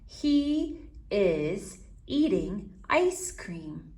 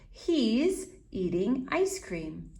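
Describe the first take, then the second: First: It is said at a normal pace. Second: It is said a little faster.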